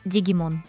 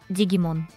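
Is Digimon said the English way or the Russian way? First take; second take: Russian; Russian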